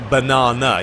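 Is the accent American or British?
British. It is said with a British accent. "We say banana"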